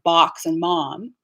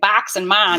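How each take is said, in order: First: The vowel is a plain ah, unshifted. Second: The vowel is shifted, in a Chicago accent. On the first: "instead of" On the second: "if I were from Chicago, I would be using this ah"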